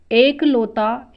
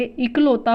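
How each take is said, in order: First: एकलौता drawn out slowly with a long "ek"; long e opening एकलौता; wrong form. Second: इकलौता opening on a short "ik"; short i at the start of इकलौता; correct form. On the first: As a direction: say एकलौता as EK-lau-ta, loud and slow. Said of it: "एकलौता अशुद्ध है". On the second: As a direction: say इकलौता as IK-lau-ta. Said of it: "होता है". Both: Shown as a demonstration.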